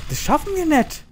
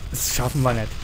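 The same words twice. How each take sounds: First: Pitched far up, wailing; high despairing wail. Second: Said in the usual way. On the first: Real, not acted. Repeats the line differently.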